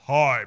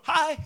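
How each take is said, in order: First: It is said in a deep, booming voice. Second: It is said in a high, lilting voice.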